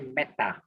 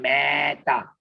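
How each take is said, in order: First: The E vowel is short. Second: The E vowel is long. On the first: The speaker calls it right. "short E as in bed, and when it's before a double consonant" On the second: The speaker calls it wrong. "We don't say meta. Supposed to be long E"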